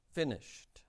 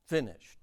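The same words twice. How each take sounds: First: "Finished." repeated much softer, falling; hushed repeat of "Finished."; soft echo. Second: Said in the usual way. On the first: Shown as a demonstration. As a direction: let "Finished." drop to a quiet echo. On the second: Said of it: "he says".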